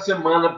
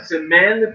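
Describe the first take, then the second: First: The second syllable has an 'a' vowel sound. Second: The second syllable has an 'e' vowel sound. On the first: The speaker calls it wrong. "Só que não é semana prochaine" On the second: The speaker calls it right. "é semaine prochaine"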